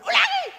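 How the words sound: The word is said loudly and harshly. The speaker calls it wrong. "bukan ulangi"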